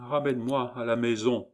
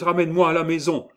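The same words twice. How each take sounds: First: Said in the usual way. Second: High, loud, rushed plea; acted frightened outburst; pleading cry. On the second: A narrator's reading. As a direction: cry out urgently to be taken home. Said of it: "s'écria Gervaise".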